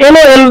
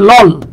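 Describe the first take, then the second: First: It is said as separate letters. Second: It is said as a single word. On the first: "এল এল না বলে" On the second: "আপনি যদি বলেন এটাকে লল"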